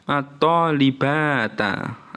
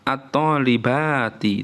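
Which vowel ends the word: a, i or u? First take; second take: a; i. First: The word ends in an a vowel. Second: The word ends in an i vowel. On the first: "nggak boleh dibaca" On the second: "itu nggak boleh"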